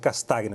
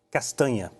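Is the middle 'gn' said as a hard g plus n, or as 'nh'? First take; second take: hard g; nh. First: The middle is said with a hard g sound. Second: The middle is said as a palatal nh sound. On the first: The speaker calls it wrong. "queria perguntar se a minha pronúncia está correta" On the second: The speaker calls it right. "a pronúncia é castanha"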